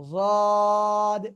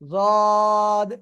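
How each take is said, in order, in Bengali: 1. প্রথম ধ্বনিটি এমফ্যাটিক, জিভের দুই পাশ মাড়ির দাঁতে লেগে থাকে। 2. প্রথম ধ্বনিটি এমফ্যাটিক, জিভের দুই পাশ মাড়ির দাঁতে লেগে থাকে।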